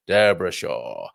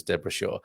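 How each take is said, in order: First: Slow, low mock Irish accent; terrible Irish accent. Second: Said in the usual way. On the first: Shown as a demonstration. Host playfully repeats listener's name, terrible Irish accent. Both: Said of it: "that was a terrible Irish accent".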